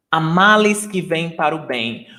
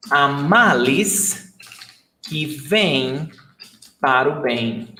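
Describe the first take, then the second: First: Said in the usual way. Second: Slow, phrase by phrase. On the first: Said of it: "then says it at normal speed". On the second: Shown as a demonstration. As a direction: say "Há males que vêm para o bem." slowly with pauses between phrases. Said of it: "teacher models saying slowly, phrase by phrase".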